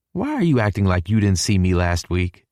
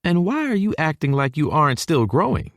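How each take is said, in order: First: Said in the usual way. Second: High-pitched motherly retort; high Texan mom, mock-challenging; countering southern mama. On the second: A narrator's reading. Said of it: "she counters".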